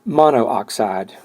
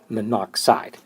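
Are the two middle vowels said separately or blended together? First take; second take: separately; blended. First: The two middle vowels are said separately. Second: The two middle vowels are blended into one. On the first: The speaker calls it wrong. "I don't say um, monooxide" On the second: The speaker calls it right. "When you have your two vowels together, you sort of blend them"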